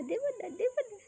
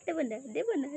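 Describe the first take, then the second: First: Teasing singsong. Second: Said in the usual way. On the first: Acted. Teasing a pet with food.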